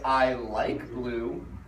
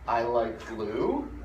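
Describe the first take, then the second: First: The voice falls at the end. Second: The voice rises at the end. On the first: It is a statement. "that's a statement" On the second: It is a question. "that's not a statement. That's a question"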